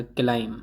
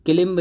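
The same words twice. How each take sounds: First: क्लाइम with long "ai", ending on m; correct, silent B. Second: क्लिम्ब with short i and sounded b; wrong pronunciation. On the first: Teacher giving learners the correct climb, क्लाइम with silent B. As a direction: say क्लाइम with no b at all. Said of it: "तो ये क्लाइम बोला जाएगा". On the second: Teacher rejecting a misreading of climb, wrong क्लिम्ब with b. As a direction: say क्लिम्ब as spelt, b heard. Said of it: "क्लिम्ब नहीं होता है". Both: Shown as a demonstration.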